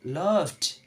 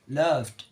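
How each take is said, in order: First: The ending is not a plain d sound. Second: The ending is a plain d sound. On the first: The speaker calls it wrong. "Not loved. It's wrong" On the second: The speaker calls it right. "So the right is loved, like this"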